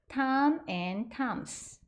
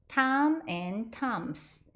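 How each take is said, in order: The two takes are said the same way.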